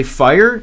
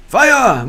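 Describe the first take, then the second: First: Said in the usual way. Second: FIRE! cried high and loud, falling; German-style fire. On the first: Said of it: "Say fire in German, I guess?". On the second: Shown as a demonstration. Streamer trying fire in German, loud exclamation. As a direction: exclaim FIRE! as a German word, ending open. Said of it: "Say fire in German".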